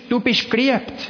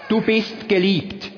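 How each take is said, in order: First: It is said in Zurich Swiss German. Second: It is said in Standard German.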